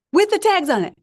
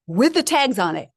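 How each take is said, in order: First: Much higher and louder repeat of "with the tags on it"; amazed repeat, pitched way up and louder; excited emphasis. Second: Said in the usual way. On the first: Real, not acted. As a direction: hit "with the tags on it" again in amazed disbelief, far higher and louder.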